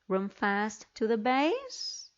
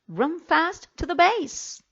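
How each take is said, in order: First: It is said with question-like, non-command intonation. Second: It is said with firm command intonation. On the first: The speaker calls it wrong. "as if they were questions or statements" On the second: The speaker calls it right. "Let's read them correctly"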